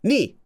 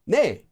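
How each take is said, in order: First: The vowel sounds like the 'ee' in 'see'. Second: The vowel sounds like the 'e' in 'bed'. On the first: This is the everyday dialect pronunciation most people use. "what people actually say instead is a dialect word, ni" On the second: This is the official standard pronunciation. "This officially is pronounced 내"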